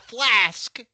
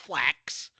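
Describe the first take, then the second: First: The word ends with an 's' then 'k' sound. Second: The word ends with a 'k' then 's' sound. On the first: The speaker calls it right. "if you drink out of a a flask" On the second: The speaker calls it wrong. "it's not a flax"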